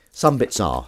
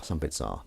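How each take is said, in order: First: Said in the usual way. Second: "Some bits are" dropped low and soft; quiet aside. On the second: Shown as a demonstration. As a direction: mutter it as a sly confession.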